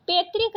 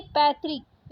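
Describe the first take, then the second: First: पैतृक said "pe-trik", closed e; wrong vowel. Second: Said in the usual way. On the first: Shown as a demonstration. Teacher rejecting a spelling, पैतृक with plain e. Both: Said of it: "पैतृक नहीं".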